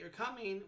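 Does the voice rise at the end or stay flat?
flat. The pitch stays flat at the end. It states that the listener is coming. "with a flat tone, it's a statement"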